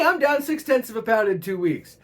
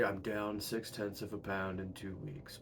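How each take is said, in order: First: The tone is upbeat and enthusiastic. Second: The tone is flat and unenthusiastic. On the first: The small loss is good news. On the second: The small loss is a letdown.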